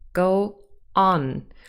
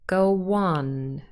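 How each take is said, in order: First: A short pause separates the two words. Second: A w sound smoothly links the two words. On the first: The speaker calls it wrong. "If we wanted to say this without a w, we would have to pause" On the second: The speaker calls it right. "There is a w appearing between go and on"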